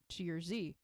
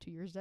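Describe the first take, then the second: First: The letter Z is said the non-Canadian way. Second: The letter Z is said the Canadian way.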